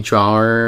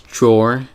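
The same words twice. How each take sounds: First: It is said as spelled, draw-er. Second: It is said shortened, as one syllable. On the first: The speaker calls it wrong. "if you didn't know that much English and you just went off the spelling" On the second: The speaker calls it right. "but it's drawer"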